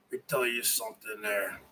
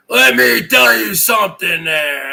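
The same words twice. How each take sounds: First: Much softer, fast mutter under the breath; very soft throwaway. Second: Louder, bellowed in character; loud hunter call. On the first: Shown as a demonstration. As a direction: toss it off quietly before the real take. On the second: Acted. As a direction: belt it out as the boastful hunter. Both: Same line, muttered then shouted.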